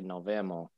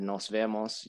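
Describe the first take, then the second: First: The s sounds are dropped. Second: The s sounds are fully pronounced. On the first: "elision when sounds are actually dropped" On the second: "instead of nos vemos"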